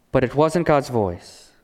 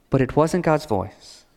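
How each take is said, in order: Both takes have the same delivery.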